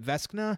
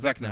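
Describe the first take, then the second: First: An 's' sound comes before the 'k' sound. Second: No 's' sound comes before the 'k' sound. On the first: The speaker calls it wrong. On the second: The speaker calls it right.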